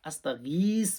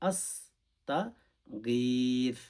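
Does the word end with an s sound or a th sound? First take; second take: s; th. First: The word ends with an s sound. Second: The word ends with a th sound. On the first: The speaker calls it wrong. "আস্তাগীস বলবেন না" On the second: The speaker calls it right. "শুদ্ধ করে"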